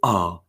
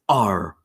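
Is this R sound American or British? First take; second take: British; American. First: The R is said in a British way. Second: The R is said in an American way. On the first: "in British, it is R" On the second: "in American, it's R"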